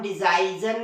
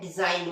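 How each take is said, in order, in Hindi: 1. इस शब्द में g की ध्वनि उच्चारित होती है। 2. इस शब्द में g की ध्वनि मौन होती है। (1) "इसे भी हम डिजाइजन नहीं पढ़ते" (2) "क्या पढ़ते हैं, डिजाइन"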